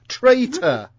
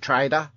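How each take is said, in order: First: The middle consonant is a clear, crisp T. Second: The middle consonant sounds like a soft D. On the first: It means someone who betrays others. The speaker calls it right. "It's got a T in the middle" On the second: It sounds like someone who sells goods. The speaker calls it wrong. "Australians can't pronounce the word"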